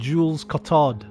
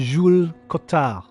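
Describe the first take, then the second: First: The name is said with an English-style pronunciation. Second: The name is said with a French-style pronunciation. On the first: The speaker calls it wrong. "A lot of voice actors would have said" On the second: The speaker calls it right. "I appreciate the"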